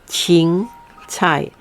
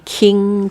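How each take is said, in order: First: The first sound is like ch. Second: The first sound is like k. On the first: The speaker calls it right. "this is sound like C H" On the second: The speaker calls it wrong. "don't say king 菜 please"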